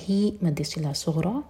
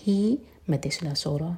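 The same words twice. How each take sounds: The two takes are said the same way.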